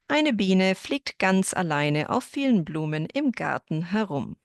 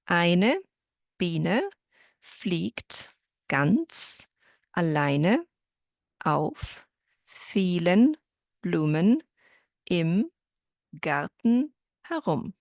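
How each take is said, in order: First: The sentence is spoken at a faster pace. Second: The sentence is spoken at a slower pace.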